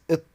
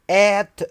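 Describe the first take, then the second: First: The word is said in a reduced form. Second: The word is said in its full form.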